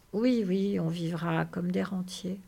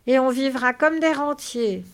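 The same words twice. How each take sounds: First: Soothing, unexcited echo; calm agreement. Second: Loud, high, delighted exclamation; bubbling happiness. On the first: George confirms the dream to Lénie, calm. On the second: Lénie chimes in on the dream, bubbling with happiness. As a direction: exclaim it overjoyed. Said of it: "Lénie gloussait de bonheur". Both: Acted.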